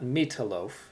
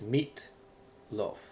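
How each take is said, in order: First: The two parts run together without a pause. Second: There is a short pause between the parts. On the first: The speaker calls it wrong. "Not meatloaf" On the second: The speaker calls it right. "You sort of pause for a second"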